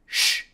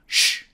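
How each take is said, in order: The two takes are said the same way.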